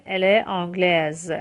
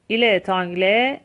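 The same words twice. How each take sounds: First: آنگلز closing on a voiced Z; French feminine "آنگلز" with audible z ending; S pronounced as Z. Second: تانگله ending on an open "eh", no S; French masculine "تانگله" with mute final consonant; silent final S. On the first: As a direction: sound the final Z in آنگلز. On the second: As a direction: leave تانگله open at the end, rising. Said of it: "اس تلفظ نمیشه". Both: Shown as a demonstration.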